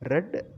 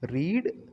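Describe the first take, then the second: First: The vowel is a short 'e' sound. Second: The vowel is a long 'ee' sound. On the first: It refers to the past. "உச்சரிப்பு மட்டும் ரெட் அப்படின்னு வாசிக்கணும்" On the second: It refers to the present. "இந்த ரீட் அப்படிங்கிறது present tense"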